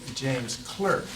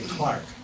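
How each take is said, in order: First: The name is said with the vowel of 'work'. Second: The name is said with the vowel of 'park'. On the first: The speaker calls it wrong. "That's the way it's spelled" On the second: The speaker calls it right. "They say Clark"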